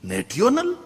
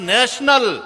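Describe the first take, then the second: First: The middle is said with a 't' sound. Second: The middle is said with a 'sh' sound. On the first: The speaker calls it wrong. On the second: The speaker calls it right. "એલા નેશનલ"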